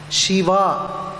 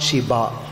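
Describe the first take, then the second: First: The middle consonant is a 'v' sound. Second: The middle consonant is a 'b' sound. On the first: The speaker calls it right. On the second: The speaker calls it wrong.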